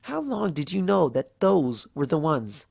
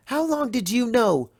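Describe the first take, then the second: First: Said in the usual way. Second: Pained high question. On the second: Acted. Twilight pressing the princess, voice jumping higher. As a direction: voice jumps much higher on the repeat. Repeated accusing question, breaking.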